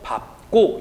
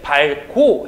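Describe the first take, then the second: First: The p sound is kept before the ending. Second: The l sound is kept before the ending. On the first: The speaker calls it right. "밥고 이라고 발음을 한다는" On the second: The speaker calls it wrong. "밝고 해야 되겠지만 그렇게 발음하지 않고"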